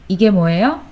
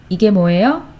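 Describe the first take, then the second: The two takes are said the same way.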